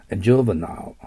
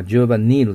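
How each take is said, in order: First: Juvenile ending in "-nile", like the river Nile; first pronunciation. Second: Juvenile ending in short "-nil"; alternative pronunciation. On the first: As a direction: say Juvenile as JOO-vuh-nile, long i. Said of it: "そういう発音で". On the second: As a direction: say Juvenile as JOO-vuh-nil, last vowel short. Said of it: "またはJuvenileという発音もあります". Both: Shown as a demonstration.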